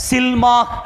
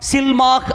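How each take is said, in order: Both takes have the same delivery.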